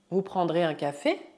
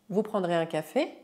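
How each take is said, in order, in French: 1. La voix monte à la fin. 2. La voix monte à la fin.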